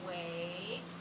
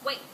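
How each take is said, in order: First: The word is said in a calm, drawn-out way. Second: The word is barked out short and harsh. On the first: The speaker calls it right. "How you say it also impacts how they take that command" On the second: The speaker calls it wrong. "just barking literally the commands at them"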